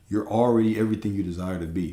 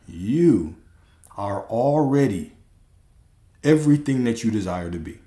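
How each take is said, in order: First: It is said at normal speed. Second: It is said slowly and deliberately.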